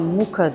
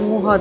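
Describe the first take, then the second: First: The middle consonant is a hard k sound. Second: The middle consonant is a breathy h sound. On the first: This is how it is said in English. "İngilizce'de Muka diye de söyleniyor" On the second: This is how it is said locally. "buradaki söylenişiyle Muha dedim"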